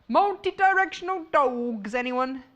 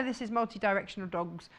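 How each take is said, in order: First: Playful hawking. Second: Said in the usual way. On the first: Pretend. Host jokingly offering dog fabric to viewers, playful hawking. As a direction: call it out as a silly offer.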